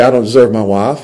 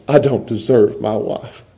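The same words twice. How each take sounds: First: Said in the usual way. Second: Humble gratitude. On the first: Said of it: "The fairness lens says". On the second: Shown as a demonstration. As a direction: say it humbly, voice lowered. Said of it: "you put on the grace".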